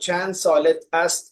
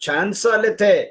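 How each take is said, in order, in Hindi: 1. अंत का 'ast' पूरा बोला जाता है। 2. अंत का 'ast' घटकर एक स्वर रह जाता है।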